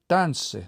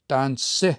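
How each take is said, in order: First: The stress falls on the third-last syllable. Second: The stress falls on the final syllable. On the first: It shows the word has three syllables. The speaker calls it right. "there will typically be stress on the third last" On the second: It sounds like a two-syllable word. The speaker calls it wrong. "we don't say it that way"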